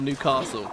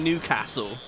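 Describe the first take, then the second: First: It is said the southern English way. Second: It is said the northern English way. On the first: It is how the speaker normally says it. "because I'm a toffee prick from the south" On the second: It is how locals say the name. "I even feel weird saying Newcastle"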